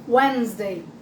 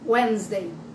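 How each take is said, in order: Both takes have the same delivery.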